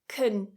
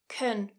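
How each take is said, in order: First: The word has a weak, relaxed vowel. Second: The same.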